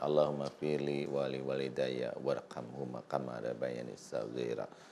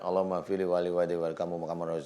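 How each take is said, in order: First: The prayer is said slowly and calmly. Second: The prayer is rushed and slurred together quickly. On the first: The heart takes part in the prayer. The speaker calls it right. "Tunduk, tenang, baru ya, pelan" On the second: The heart is not involved in the prayer. The speaker calls it wrong. "gitu jangan ya"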